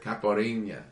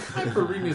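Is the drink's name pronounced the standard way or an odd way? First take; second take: standard; odd. First: The word is given its usual standard pronunciation. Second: The word is given an odd, garbled pronunciation. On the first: The speaker calls it right. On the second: The speaker calls it wrong.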